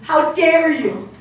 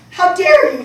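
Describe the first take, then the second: First: Slow angry. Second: Louder and higher, fury spilling over; furious repeat. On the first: Mother's angry outburst. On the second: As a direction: she hurls it at her daughter. Mother's angry outburst repeated. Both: Acted.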